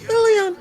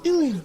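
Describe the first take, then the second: First: It is said in a much higher voice. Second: It is said in a lower, calmer voice. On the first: "Go a few octaves higher" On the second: "You don't sound excited enough"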